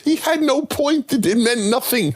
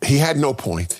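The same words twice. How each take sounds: First: Chipmunk-high edited echo; the same line shot way up in pitch; pitched-up repeat. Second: Said in the usual way. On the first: Acted. Host's line replayed much higher as a joke.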